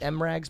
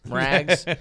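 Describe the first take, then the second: First: The M is said as a separate letter. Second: The M is blended into the word. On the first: "That's how I say it"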